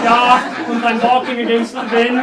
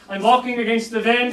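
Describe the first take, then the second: First: Hammed-up German accent with Ja und and wind as vend. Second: Put-on light German accent, w turned to v in wind; mock German, just a hint. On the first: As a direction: play a mock German mime. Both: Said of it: "I'll do it in a German accent".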